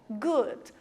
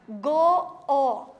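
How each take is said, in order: First: The double o is said as one vowel. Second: The double o is said as two separate vowels. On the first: The speaker calls it right. "nós vamos juntar e fazer um único som" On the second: The speaker calls it wrong. "Se a gente fosse ler em português, ia ficar go-o"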